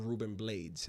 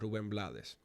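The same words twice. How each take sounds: First: The name is pronounced with English sounds. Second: The name is pronounced with Spanish sounds.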